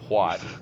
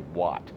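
First: A breathy h sound comes before the w. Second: The h is silent before the w. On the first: This is how the speaker normally says it. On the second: This is how others wanted it said.

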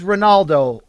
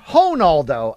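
First: The name is said in a plain English way. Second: The name is said with a Brazilian pronunciation.

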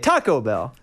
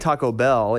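First: The stress falls on Taco. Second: The stress falls on Bell.

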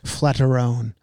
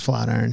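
First: The ending is said in an altered, unusual way. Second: The ending is said like the ordinary word 'iron'. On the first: The speaker calls it wrong. "A guy told me one time I was pronouncing it wrong" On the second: The speaker calls it right. "But it's not. It's Flatiron"

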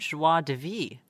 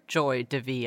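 First: The first word sounds like French 'joie'. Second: The first word sounds like English 'joy'. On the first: This is how the listener's ears corrected it. "I heard joie de vivre" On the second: This is how the other woman said it. "I did not hear joy de vivre"

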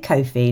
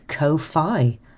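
First: The second syllable sounds like 'fee'. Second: The second syllable rhymes with 'lo-fi'. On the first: "I say Ko-fi like it's a nan" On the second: "Maybe it's Ko-fi, like it's lo-fi"

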